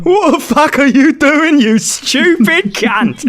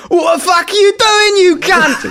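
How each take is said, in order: First: Higher Cockney geezer voice, slowing at the end; mock Cockney. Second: Shouted Cockney geezer voice, much higher; mock Cockney. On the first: Gamer repeating his Cockney voice for friends, hammed-up. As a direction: sneer it like a Cockney lad. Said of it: "That's quite a good accent". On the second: Gamer mocking friends in a Cockney accent, hammed-up shout. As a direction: bark it like an angry Cockney lad. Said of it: "[name] trying to do a Cockney accent".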